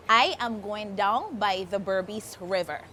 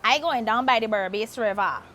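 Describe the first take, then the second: First: Said in the usual way. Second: Guyanese accent, I going down; Guyanese saying. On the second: Shown as a demonstration. Host teaching a Guyanese sentence in its accent.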